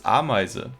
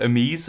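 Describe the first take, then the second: First: The name ends with a final vowel syllable. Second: The name ends without a final vowel syllable. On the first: The speaker calls it right. "it's Ameise" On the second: The speaker calls it wrong. "it's not Amise"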